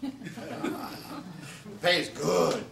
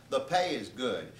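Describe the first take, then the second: First: Drawn-out laughing; laughing, slow. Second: Said in the usual way. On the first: Shown as a demonstration. Comic telling of the gig's pay, slow and laughing. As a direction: stretch it out through a laugh. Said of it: "by good, I mean three hundred and fifty dollars".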